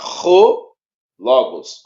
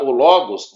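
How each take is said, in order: First: The first vowel starts with a strong throaty breath. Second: The first vowel starts plain, without breath. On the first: The speaker calls it right. "você vai pronunciar ro logos, ... mais na garganta" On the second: The speaker calls it wrong. "Em vez de você pronunciar o logos"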